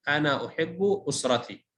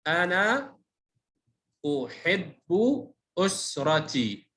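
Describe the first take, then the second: First: Said in the usual way. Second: أنا أحب أسرتي split up with long pauses; separate, measured words in أنا أحب أسرتي; word-by-word reading. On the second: Shown as a demonstration. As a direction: sound out أنا أحب أسرتي slowly for a beginner. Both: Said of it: "تهجأ".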